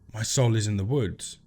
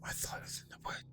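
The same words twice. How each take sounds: First: It is spoken in a normal voice. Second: It is spoken in a whisper.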